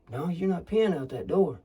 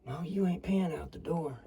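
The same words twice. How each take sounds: First: Half-raised scolding voice. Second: Hushed scolding whisper. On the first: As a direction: stop whispering and scold him. Argument escalates, voice rises. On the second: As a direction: hiss it under your breath. Whispered argument in blind. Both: Acted.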